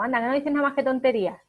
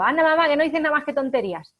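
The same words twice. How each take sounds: First: Quick, brushing-off scold from mother to son; mother dismissing her son's chatter, quick and scornful; dismissive parent. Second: Put-on cheeky teen retort, higher, louder and quick; mocking teenager. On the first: Retold or imitated. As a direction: rattle it off as a mother belittling her child. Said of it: "Si le digo cosas como". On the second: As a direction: fire it back like a snotty adolescent. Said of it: "qué dice el adolescente a su madre".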